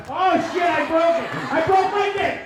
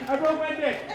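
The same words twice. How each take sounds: First: Loud, high alarmed cry; mock panic, loud and high; panicked yelp. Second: Said in the usual way. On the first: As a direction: shout it like you just snapped it. Panicked cry over broken toy.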